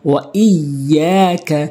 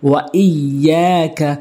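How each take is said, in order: No difference in how they are said.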